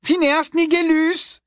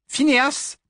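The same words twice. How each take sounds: First: High, louder, slow call; louder repeat. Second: Said in the usual way. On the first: A narrator's reading. Hermione calling the portrait again, louder. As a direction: call the name harder. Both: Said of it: "répéta Hermione".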